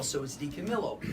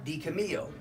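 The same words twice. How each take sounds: First: "Di Camillo" with a clear L, Italian style; pronounce the L. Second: "Di Camillo" with the L dropped, like "Cami-o"; silent L. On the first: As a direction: say "Camillo" sounding the double L. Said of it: "you pronounce the L". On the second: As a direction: say "Camillo" swallowing the L. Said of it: "you say". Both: Shown as a demonstration.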